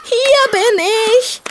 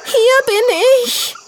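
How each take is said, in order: First: High, slow hopeful piglet call. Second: High, slow scared piglet call; frightened voice. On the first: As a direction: call back with hope, high and drawn out. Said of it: "die hoffnungsvolle Stimme". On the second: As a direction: call out in fear, high and drawn out. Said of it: "die verängstigte Stimme". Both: Acted.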